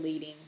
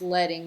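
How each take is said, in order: First: The first vowel is a long 'ee'. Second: The first vowel is a short 'e'. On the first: It is the everyday word, not the design term. The speaker calls it wrong. "not leading in the design world" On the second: It names the spacing between lines of type. The speaker calls it right. "it's pronounced leading"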